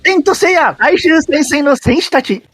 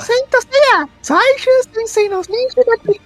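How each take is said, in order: First: It is said with an exaggerated Japanese intonation. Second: It is said in a cutesy girlish voice. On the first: "uma entonação mais japonesa ainda" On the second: "daquelas meninas kawaii"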